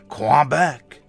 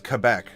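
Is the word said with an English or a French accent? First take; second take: French; English. First: It is said in a nasal French accent. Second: It is said in a plain English accent. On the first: "that very nasally, stereotypical French accent" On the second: "I am pronouncing it correctly. It is Quebec"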